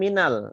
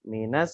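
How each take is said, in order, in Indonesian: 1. Bunyi L diucapkan dengan jelas. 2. L dihilangkan dan melebur ke S. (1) "Kenapa tidak minal?" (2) "lamnya tidak dibaca. Jadi langsung minas sa"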